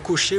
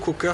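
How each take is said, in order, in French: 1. Le nom se prononce à la française. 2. Le nom se prononce à l'anglaise.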